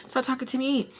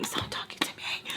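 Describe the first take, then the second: First: Higher, voiced whine of annoyance; exasperated plea. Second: Exasperated whisper, nearly voiceless; whispered plea. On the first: Vlogger wishing the woman would stop asking her, exasperated whine. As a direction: plead aloud in a raised pitch. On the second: Acted. Vlogger wishing the woman would stop asking her, whispered exasperation. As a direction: hiss it privately under the breath.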